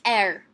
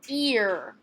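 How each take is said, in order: First: The word begins with a short E vowel. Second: The word begins with a long E vowel. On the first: The speaker calls it wrong. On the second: The speaker calls it right.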